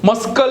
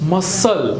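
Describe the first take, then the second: First: A K sound is pronounced in the middle. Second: The K sound is left out entirely. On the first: The speaker calls it wrong. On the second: The speaker calls it right.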